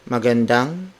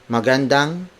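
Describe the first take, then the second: The two takes are said the same way.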